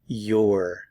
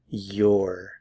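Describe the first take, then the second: First: It is contracted into one syllable. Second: It is contracted into one syllable.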